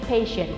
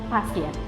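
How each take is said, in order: First: It is pronounced the English way. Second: It is pronounced the Indonesian way. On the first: The speaker calls it right. "you have to change your pronunciation into English too" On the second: The speaker calls it wrong. "not pasien. Pasien Indonesia"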